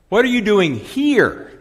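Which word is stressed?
here. The word 'here' carries the main stress. Asks why the person is in this place. "A question of availability"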